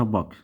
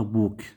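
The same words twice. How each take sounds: First: بوك with a short, lax vowel, like "buhk"; irregular short vowel. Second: بوك with a long "oo", like "booook"; wrong long vowel. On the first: Teacher models the exception, short vowel in بوك. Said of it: "هاي يسمونها شاذة". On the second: Teacher shows the rule wrongly applied, long "oo" in بوك. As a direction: mispronounce بوك by lengthening the rounded vowel. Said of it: "هاي ما نلفظها بوك". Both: Shown as a demonstration.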